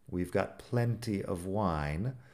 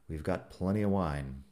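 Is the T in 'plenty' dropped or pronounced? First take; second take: pronounced; dropped. First: The T in plenty is clearly pronounced. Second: The T in plenty is dropped. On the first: The speech is careful and formal. "Así si lo digo un poco más formal. ... Sí que pronuncio la T" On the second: The speech is casual and relaxed. "estoy hablando un poco más relajado. ... La T como si no estuviera ahí"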